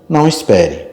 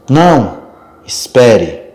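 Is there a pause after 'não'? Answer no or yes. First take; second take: no; yes. First: The two words run together with no pause. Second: There is a short pause after the first word. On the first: It tells the person not to wait. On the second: It asks the person to stay and wait.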